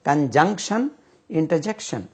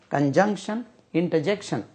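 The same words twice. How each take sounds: The two takes are said the same way.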